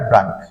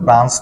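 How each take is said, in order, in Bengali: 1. শব্দটি 'k' উচ্চারণে শেষ হয়। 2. শব্দটি 'ch' উচ্চারণে শেষ হয়। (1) "উচ্চারণটা হবে ব্রাঙ্ক" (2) "উচ্চারণ কিন্তু ব্রাঞ্চ না"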